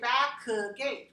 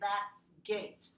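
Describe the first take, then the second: First: The k sound is fully released before gate. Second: The k sound is held without release. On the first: The speaker calls it wrong. "We don't release it. We don't say back gate" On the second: The speaker calls it right. "We say back gate"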